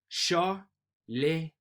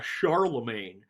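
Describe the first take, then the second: First: It is said with a native French pronunciation. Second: It is said with a broad rural American pronunciation. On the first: The speaker calls it right. "How do you perfectly pronounce this?" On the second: The speaker calls it wrong. "which sounds really country bumpkin"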